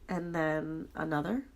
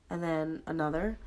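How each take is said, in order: Both takes have the same delivery.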